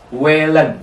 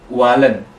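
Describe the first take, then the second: First: The first vowel sounds like 'e'. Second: The first vowel sounds like 'a'. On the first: The speaker calls it right. "A umlaut kan dibaca E" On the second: The speaker calls it wrong. "bukan walen"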